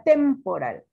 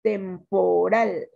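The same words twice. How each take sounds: First: "temporal" said as TEMporal, first syllable punched; wrong first-syllable stress. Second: "Temporal" slow, split as tem, po, RAL; correct last-syllable stress. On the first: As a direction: hit TEM in "temporal", let the rest drop. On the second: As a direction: sound out "Temporal", landing on a long RAL. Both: Shown as a demonstration. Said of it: "No, ahí sería temporal".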